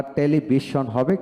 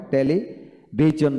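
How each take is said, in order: First: "টেলিভিশন" with sh, te-li-bi-shon; "sh" variant. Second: "টেলিভিশন" slowly with j, te-li, bi-jon; "টেলিভিশন" as teli... bijon; "j" variant. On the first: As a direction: say "টেলিভিশন" with a hushed sh at the end. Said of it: "বা টেলিভিশন হবে". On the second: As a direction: say "টেলিভিশন" in two parts with a voiced j. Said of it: "টেলিভিশন বলা হয়". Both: Shown as a demonstration.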